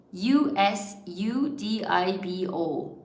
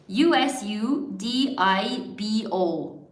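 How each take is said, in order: Both takes have the same delivery.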